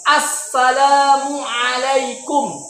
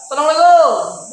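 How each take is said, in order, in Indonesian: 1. Setiap bunyi diucapkan dengan jelas dan tegas. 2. Bunyinya kabur dan saling menyambung. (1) "pakai makhraj yang benar" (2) "Itu makhrajnya nggak jelas"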